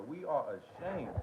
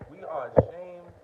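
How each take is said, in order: First: Said in the usual way. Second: Mock loud quote. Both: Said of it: "Mark Brown said".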